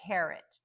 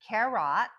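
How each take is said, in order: First: Carrot as CARE-ut, weak second syllable; correct schwa ending. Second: Carrot wrongly said care-AHT, loud second syllable; wrong full-vowel ending. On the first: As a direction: reduce the end of carrot to a schwa. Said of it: "we say". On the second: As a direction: give carrot a full short O, like robot. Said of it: "We don't say carrot". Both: Shown as a demonstration.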